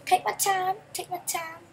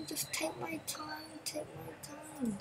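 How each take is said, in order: First: Quick and louder, higher; rushing the words out; eager take my time. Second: Drawn out slowly, much softer. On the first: Gamer hurrying his car along, eager and loud. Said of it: "Yep, slowly". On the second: Gamer telling himself to drive slowly, slow and soft. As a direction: ease it out slowly, barely above a breath. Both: Shown as a demonstration.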